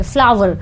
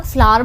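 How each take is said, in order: First: फ्लावर said as two syllables, flaa-ver, with a clear v; students' wrong pronunciation. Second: फ्लावर said as one smooth syllable, flaar, no v sound; correct pronunciation. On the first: Teacher imitates students' mistake, फ्लावर as flaa-ver. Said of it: "students क्या करते हैं, फ्लावर बोलते हैं". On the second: Teacher shows students the right way, फ्लावर as flaar. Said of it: "इसका pronunciation गलत है, इसको हम लोग फ्लावर बोलेंगे". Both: Shown as a demonstration.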